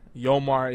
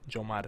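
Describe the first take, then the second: First: The name begins with a Y sound. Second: The name begins with a J sound. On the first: This is the non-Spanish way of saying the name. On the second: This is how the name is said in Spanish.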